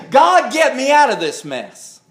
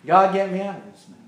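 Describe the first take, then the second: First: Higher-pitched plea to God; acted urgent plea, pitched up; pleading prayer. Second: Soft, rushed repeat of a prayer; hurried, softer mock prayer; quiet aside. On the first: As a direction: cry out to God for rescue. Acts out a plea for rescue.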